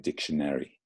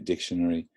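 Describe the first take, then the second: First: It is said in an American accent. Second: It is said in a non-American accent. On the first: "Americans would say dictionary" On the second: "I would say dictionary"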